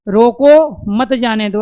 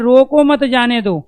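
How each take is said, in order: First: There is a pause right after 'roko'. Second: There is a pause right after 'mat'. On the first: Stop it; do not let it go. "एक बार आराम ठहराव यहाँ लिया" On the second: Do not stop it; let it go. "एक बार आराम ठहराव मत के बाद लिया"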